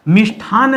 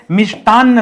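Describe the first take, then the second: First: मिष्ठान said with aspirated ठ, short a, no final vowel; मिष्ठान as the incorrect form; wrong spelling said. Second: मिष्टान्न with plain ट and a long doubled न्न ending in a; correct form. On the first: Teacher saying the wrong form to students, plain. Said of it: "मिष्ठान नहीं होता है". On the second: Teacher giving students the correct word, firm. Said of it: "मिष्टान्न शब्द होता है". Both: Shown as a demonstration.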